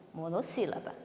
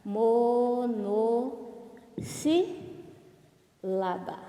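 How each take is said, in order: First: Said in the usual way. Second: MONOSSÍLABA drawn out as mo-no-sí-la-ba, very slowly; syllable by syllable. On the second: Shown as a demonstration. Teacher shows pupils the term, "Monossílaba" syllable by syllable. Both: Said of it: "Olha lá".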